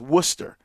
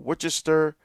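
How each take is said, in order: First: It is pronounced the way locals say it. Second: It is pronounced the way it looks written. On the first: The speaker calls it right. "that's how they say it here" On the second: The speaker calls it wrong. "it's not pronounced like it looks"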